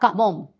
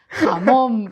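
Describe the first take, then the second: First: The word begins with a hard K-like sound. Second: The word begins with a raspy throaty J sound. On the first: This imitates how a relative mispronounced the word. The speaker calls it wrong. "no pronunciaba eh, la J" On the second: This is the standard pronunciation. The speaker calls it right. "no era jamón"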